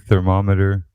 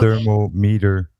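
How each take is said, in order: First: The middle sounds like the word mom. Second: It is split into thermo plus meter. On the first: The speaker calls it wrong. "I always giggle when I hear people say thermometer" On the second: The speaker calls it right. "It's a thermometer"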